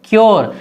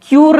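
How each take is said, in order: First: "क्योर" said as kyor, with an o sound; "क्योर" clearly as kyor; correct pronunciation. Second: "क्यूर" said as kyur, the wrong way; "क्यूर" as kyur, the incorrect form; wrong pronunciation shown. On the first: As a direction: say "क्योर" like kyor, not kyur. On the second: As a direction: say "क्यूर" with a long u, as a mistake. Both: Shown as a demonstration. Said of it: "क्यूर नहीं पढ़ना".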